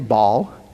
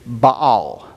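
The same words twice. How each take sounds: First: The vowels merge, giving a single syllable. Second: Both vowels are sounded, giving two syllables. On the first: "But I just say" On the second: "you are technically supposed to pronounce both A's. So the correct pronunciation is"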